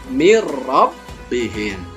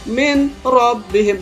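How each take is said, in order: First: The n merges into a doubled r sound. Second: The n is sounded separately before the r. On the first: The speaker calls it right. "The good way is mirrabbihim" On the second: The speaker calls it wrong. "Kalau kita baca min rabbihim salah"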